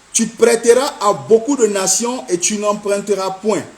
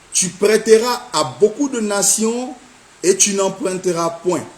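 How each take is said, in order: No difference in how they are said.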